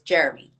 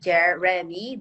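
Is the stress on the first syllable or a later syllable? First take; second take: first; later. First: The stress falls on the first syllable. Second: The stress falls on a later syllable. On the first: The speaker calls it right. "the way you should read this word is Jeremy" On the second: The speaker calls it wrong. "it's not a big mistake to say Jeremy"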